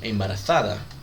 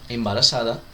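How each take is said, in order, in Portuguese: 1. A consoante do meio é um som de 'th'. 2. A consoante do meio é um simples som de 's'. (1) "Na Espanha você pode ouvir algo como embarazada, certo? Com o dentinho, com a, com a linguinha entre os dentes"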